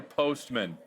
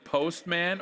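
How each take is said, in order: First: "postman" ending in a weak "mun"; reduced MAN pronunciation. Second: "postman" with a full "man" at the end; full MAN pronunciation. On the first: Host offering the other name pronunciation, reduced-vowel "postman". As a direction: swallow the vowel in "postman", like "post-m'n". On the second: Host checking the product name with guest, full-vowel "postman". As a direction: say "postman" like post plus man. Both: Shown as a demonstration. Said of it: "we had a little discussion".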